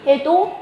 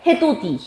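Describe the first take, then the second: First: 해돋이 said 해도지, hae-do-ji; palatalized 해돋이. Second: 해돋이 said 해도디, hae-do-di; unpalatalized 해돋이. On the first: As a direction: turn the ㄷ of 해돋이 into a j sound, pitched high. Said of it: "뭐라고 발음이 돼?". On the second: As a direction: keep the d sound in 해돋이, raised in pitch. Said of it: "이렇게 소리 나야 돼". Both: Shown as a demonstration.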